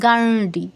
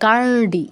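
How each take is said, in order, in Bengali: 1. 'd' ধ্বনিটি মূর্ধন্য। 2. 'd' ধ্বনিটি মূর্ধন্য।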